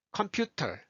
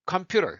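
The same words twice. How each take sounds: First: 컴퓨터 with a clearly puffed T; careful aspirated T in 컴퓨터; full T sound. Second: 컴퓨터 with the T as a light R-like tap; American-style tapped 컴퓨터; flapped T. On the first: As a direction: release the T hard in 컴퓨터. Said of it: "터로 안 하고". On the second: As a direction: drop the T of 컴퓨터 into a flap. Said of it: "컴퓨터 이렇게 소리 툭 놓아요". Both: Shown as a demonstration.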